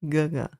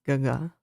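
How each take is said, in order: The two takes are said the same way.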